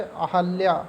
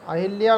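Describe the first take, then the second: First: अहल्या said with no i, a-hal-ya; अहल्या given as the correct form. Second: अहिल्या said with a short i, a-hil-ya; अहिल्या given as the incorrect form; wrong form said. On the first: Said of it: "सही शब्द है अहल्या". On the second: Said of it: "अहिल्या नहीं होता है". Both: Shown as a demonstration.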